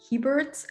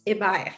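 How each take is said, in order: First: The name is pronounced the English way. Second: The name is pronounced the French way. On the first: This is the easier form for English speakers. "for English-speaking folks, um, it's easier to say Hebert" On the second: This is how it is said locally in Quebec. "But here in Quebec, it's Hebert"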